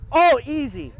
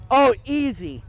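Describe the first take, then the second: First: Loud call, easy now. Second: Loud teasing call. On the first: Calling out to grandma. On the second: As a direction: call it out again, playful. Repeats the call. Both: Real, not acted.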